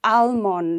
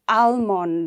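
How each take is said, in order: First: The L sound is pronounced. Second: The same.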